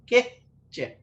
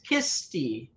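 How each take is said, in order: First: The h before c is a plain breathy sound. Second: The h before c sounds like sh. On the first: "kiche is pronounced keche" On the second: "By some speakers is kisti. There's an S in there"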